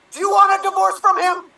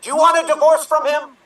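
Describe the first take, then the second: First: Even higher, louder insistence; political drama. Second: Louder, higher, pressing question; political drama. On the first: Captain repeating his divorce question, pushing higher and louder. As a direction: push harder the second time. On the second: Captain pressing the wife on divorce, louder and higher. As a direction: demand an answer, fast. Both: Acted. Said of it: "political drama".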